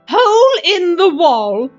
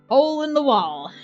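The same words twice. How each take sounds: First: It is read in a put-on character voice. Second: It is read in a plain, natural voice.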